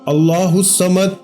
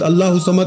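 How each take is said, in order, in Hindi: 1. हर शब्द अलग और ध्यान से बोला जाता है। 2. शब्द जल्दी-जल्दी एक साथ जोड़कर बोले जाते हैं। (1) "एक एक लफ्ज अलग अलग करके समझाया है, इसी तरह पढ़ेंगे" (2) "खुदारा ऐसे नहीं पढ़ना"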